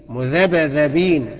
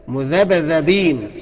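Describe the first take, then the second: The two takes are said the same way.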